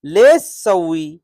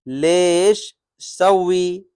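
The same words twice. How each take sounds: First: Said in the usual way. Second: Slow demo. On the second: Shown as a demonstration. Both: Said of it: "लेश यानी क्यों".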